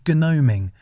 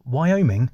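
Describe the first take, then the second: First: "Gnoming" said as "NOH-ming", firmly, the silent g; correcting. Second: "Wyoming" said as the US state, the wrong word; misheard word. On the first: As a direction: correct him: "Gnoming", not "Wyoming". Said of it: "No, no," he said". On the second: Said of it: "No, no," he said, "Gnoming". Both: Acted.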